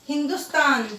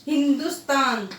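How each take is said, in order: The two takes are said the same way.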